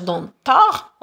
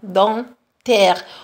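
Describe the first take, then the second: First: The final vowel sounds like 'a'. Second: The final vowel sounds like 'è'. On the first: The speaker calls it wrong. "On ne va pas dire dentard" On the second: The speaker calls it right. "le A I, on le prononce E"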